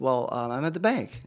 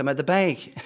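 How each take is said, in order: First: Hesitant, drawn-in answer with an um; retold hesitant husband, fairly contained; hesitant reply. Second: Louder, higher retold outburst; panicky answer. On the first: Husband answering his wife on the phone from the bank, hesitant. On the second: Husband freaking out on the phone to his wife, panicky and loud. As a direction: blurt it as a freaked-out husband, half comic.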